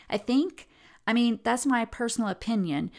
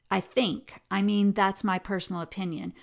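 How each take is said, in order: First: "I think" jumps higher, then "I mean, that's my personal opinion" tacked on unsure; hedging tag, rising. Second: Said in the usual way. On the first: Retold or imitated. Lecturer imitating interviewee's unsure tag with rising pitch. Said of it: "I'm going to try to do the tagging and the, the voice and the intonation in the same way that she did". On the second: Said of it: "So when she says".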